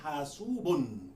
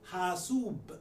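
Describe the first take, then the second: First: The word ends with a full -un ending. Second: The word stops short with no final vowel ending. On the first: This is the full form with every ending pronounced. "rather than hasubun" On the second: This is how people say it when stopping in speech. "they will say hasub"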